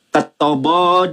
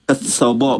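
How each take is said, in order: First: The middle consonant is a t sound. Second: The middle consonant is an s sound. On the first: This is the standard reading. "Ini yang standar dulu" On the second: This is the eloquent, refined reading. "Saya bacakan bacaan Aramaik yang paseh"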